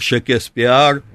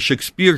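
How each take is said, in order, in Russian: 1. Название произносится с английскими звуками. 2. Название произносится в обычной русской форме.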